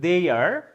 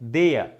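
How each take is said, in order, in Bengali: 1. এটি আমেরিকান উচ্চারণে বলা হয়েছে। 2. এটি ব্রিটিশ উচ্চারণে বলা হয়েছে। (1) "আমেরিকানরা বলছে" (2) "ব্রিটিশরা বলছে"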